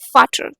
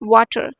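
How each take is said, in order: First: The word begins with an F sound. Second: The word begins with a W sound. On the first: The speaker calls it right. "It's फाटर" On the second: The speaker calls it wrong. "It's not वाटर"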